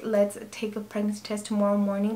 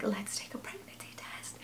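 First: Said in the usual way. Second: Whispered with no voice at all; hushed whisper. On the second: Retold or imitated. Whispering to sister-in-law at seven in the morning, hushed. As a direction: whisper it very softly, like a secret. Secret early-morning test, partner asleep.

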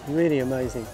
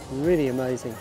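The two takes are said the same way.

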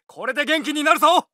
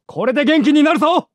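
First: Said in the usual way. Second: Loud call while healing; louder version of the line; shouted take. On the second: Acted. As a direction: shout it across the field.

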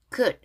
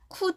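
First: "could" as one syllable ending on d; correct pronunciation. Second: "could" with an added final vowel, "ku-du"; wrong pronunciation. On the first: Teacher correcting learners, one-syllable "could". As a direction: stop "could" on the d, no vowel after. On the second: Teacher showing learners the mistake, "could" as "ku-du". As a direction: split "could" into Korean syllables. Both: Shown as a demonstration. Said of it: "could 아니고 그냥 could".

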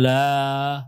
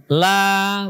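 First: "la" with a heavy, backed a; thick la, wrong. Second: "La" with a thin, front a, held long. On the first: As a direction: thicken the a of "la" like a mistaken reading. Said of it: "La bukan la". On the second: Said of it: "Jadi dibaca tipis semuanya, rileks". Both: Shown as a demonstration.

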